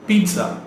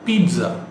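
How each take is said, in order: The two takes are said the same way.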